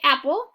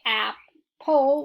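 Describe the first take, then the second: First: The P sound is said once, single. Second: The P sound is said twice, doubled. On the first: The speaker calls it right. "we say apple" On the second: The speaker calls it wrong. "Mark out our P because we don't say apple"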